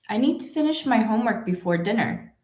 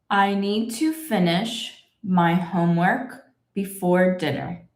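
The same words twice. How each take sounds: First: The sentence is read at natural conversational speed. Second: The sentence is read slowly and carefully. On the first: "That speed is pretty much my normal speed" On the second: "I will read the whole sentence slowly"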